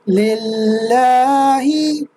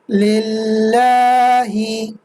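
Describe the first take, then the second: No difference in how they are said.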